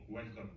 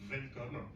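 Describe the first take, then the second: First: It is said with an American English accent. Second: It is said with a German accent. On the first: The speaker is an American. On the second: The speaker is a German.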